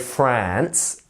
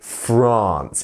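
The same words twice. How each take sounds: First: The vowel is short and flat, as in cat. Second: The vowel is long and open, as in father. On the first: The speaker calls it wrong. "you wouldn't say France with a a sound" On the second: The speaker calls it right. "It's more of an ah sound"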